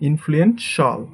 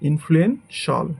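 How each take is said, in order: The two takes are said the same way.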